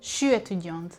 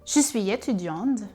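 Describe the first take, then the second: First: Je suis is squeezed into one short syllable. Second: Je suis is said in full, two syllables. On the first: This is the Quebec French way. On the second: This is the European French way.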